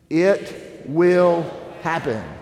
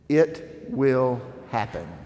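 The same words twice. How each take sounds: First: It is said firmly, with strong conviction. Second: It is read plainly, without much conviction. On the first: The speakers truly believe it will happen. "say it like you actually mean it" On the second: The words are only being read for the first time. "that was your first time reading it"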